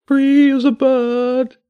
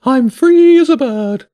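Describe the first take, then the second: First: High, slow bird voice, dazed; a stunned pigeon mumbling its catchphrase, high and slow. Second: High, loud and slow bird voice; a giddy pigeon savouring freedom, high and loud; high bird voice drawn out with joy; joyful pigeon. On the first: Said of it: "it said in a dazed voice". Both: Acted.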